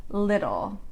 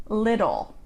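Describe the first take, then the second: Both takes have the same delivery.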